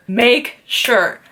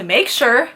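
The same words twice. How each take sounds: First: "make sure" with weight on MAKE; emphatic repeat. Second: Said in the usual way. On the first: Real, not acted. Picky patient insisting on her nose, stress on "make". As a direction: lean on "make", falling on "sure".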